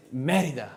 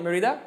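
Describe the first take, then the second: First: Merida stressed on the first syllable, MEH-ree-da; correct stress. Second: Merida stressed on the second syllable, meh-REE-da; wrong stress. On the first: Shown as a demonstration. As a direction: push the ME in Merida. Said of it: "You didn't pronounce it correctly". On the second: Retold or imitated. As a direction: push the RI in Merida. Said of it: "I was calling it Merida".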